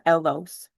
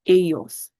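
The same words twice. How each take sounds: First: The double L sounds like an English L. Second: The double L sounds like an English Y. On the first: The speaker calls it wrong. "It's not ellos" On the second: The speaker calls it right. "There's that y sound"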